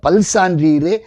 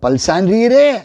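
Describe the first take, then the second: First: It is said as a plain, respectful address. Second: It is said in a changed, mocking tone. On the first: The listeners are truly honoured as virtuous. "பலவிதமான அ குணங்களை பெற்றிருக்கிற சான்றாண்மை உடையவர்களே அப்படின்னு கூப்பிடுறா" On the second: It questions whether the listeners are virtuous at all. "தொனிய மாத்தி கேட்கலாம்"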